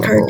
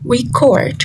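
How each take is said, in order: First: The stress is on the first syllable. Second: The stress is on the second syllable. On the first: The word is used as a noun. "Record is a noun, so the stress falls on the re" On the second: The word is used as a verb. "as a verb, the stress falls on the second syllable"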